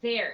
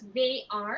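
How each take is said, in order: First: It is said as a single syllable. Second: It is said as two full syllables. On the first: "the a sound disappears. So it becomes there" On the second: "So you read it as they are"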